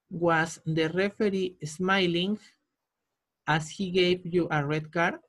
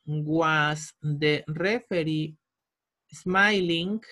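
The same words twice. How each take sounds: First: Said in the usual way. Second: Spaced out word by word, slowly; a teacher's slow, drawn-out dictation. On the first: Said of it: "teacher reads the full answer". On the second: Shown as a demonstration. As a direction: dictate it slowly so students can write. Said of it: "teacher dictates the answer slowly".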